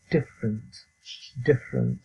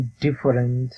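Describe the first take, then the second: First: "ডিফারেন্ট" in two syllables, "DIF-rnt"; teacher's compact "dif-rent"; correct pronunciation. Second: "ডিফারেন্ট" in three syllables, "di-fa-rent"; common mispronunciation. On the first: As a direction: model "ডিফারেন্ট" with falling tune, middle vowel dropped. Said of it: "কিন্তু আসল উচ্চারণ হলো". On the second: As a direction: show the local "ডিফারেন্ট" with a full middle "fa". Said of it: "এরকম আছে যেমন". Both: Shown as a demonstration.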